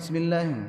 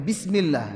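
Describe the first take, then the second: First: The vowels are clipped shorter than their length. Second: The vowels are given their full length. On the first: The speaker calls it wrong. "Jadi harakatnya itu enggak sempurna" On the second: The speaker calls it right.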